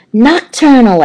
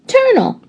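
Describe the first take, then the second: First: "Nocturnal" said in full, nok-TUR-nal, squeaky higher and louder; correct nocturnal. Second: Put-on "turnal" said as two syllables, TUR-nal, very high kid voice; child's wrong word "turnal"; mispronounced turnal. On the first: Acted. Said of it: "I squeaked". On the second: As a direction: drop the "noc" and say just "turnal". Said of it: "said Heidi".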